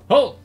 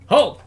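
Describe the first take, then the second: The two takes are said the same way.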